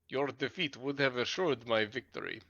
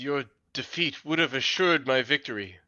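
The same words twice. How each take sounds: First: It is spoken in a Russian accent. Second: It is spoken in a plain, neutral accent.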